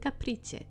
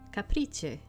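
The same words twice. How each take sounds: First: The name is pronounced with English sounds. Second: The name is pronounced with Italian sounds. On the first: "Maybe I shouldn't say it like that because you're not going to understand it" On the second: "This is an Italian name"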